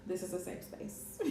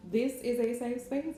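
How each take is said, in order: First: Soft breathy giggle through words; laughing whisper. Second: Said in the usual way. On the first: Retold or imitated. Quoting her own group post.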